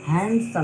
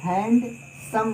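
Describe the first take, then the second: First: The word is said smoothly as one unit. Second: The word is split into two separate parts.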